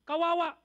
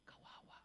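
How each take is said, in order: First: Loud, pained exclamation; emphatic pity. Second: Hushed unvoiced whisper. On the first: Preacher pitying the women in their old neighbourhood, loud and pained. Preacher repeats the word, rising. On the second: Preacher letting the congregation feel the pity, whispered. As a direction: breathe the word as a pitying whisper. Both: Shown as a demonstration.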